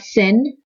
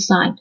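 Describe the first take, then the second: First: It has a short vowel, like 'sin'. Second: It has a long vowel, like 'sign'. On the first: The speaker calls it wrong. "It's not a sin" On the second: The speaker calls it right. "the way you pronounce it, it's a sine"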